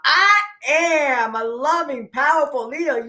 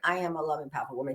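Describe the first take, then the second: First: It is said with strong, excited emotion. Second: It is said flatly, without emotion.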